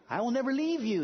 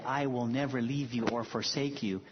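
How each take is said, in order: First: Raised, gentle voice of Jesus; tender promise. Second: Said in the usual way. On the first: Retold or imitated. Quoting Jesus to the congregation, raised and tender. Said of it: "he said". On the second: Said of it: "who said".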